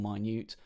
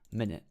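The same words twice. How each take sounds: First: The stress falls on the second syllable. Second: The stress falls on the first syllable. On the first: Something is very small. "the definition small" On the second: It is a unit of time. "or an amount of time"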